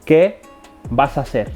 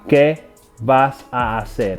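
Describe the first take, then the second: First: The neighbouring vowels are slurred together. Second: The neighbouring vowels are said separately. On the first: The speaker calls it right. "A native Spanish speaker ... will say it like this" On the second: The speaker calls it wrong. "A non-native Spanish speaker might say it like that"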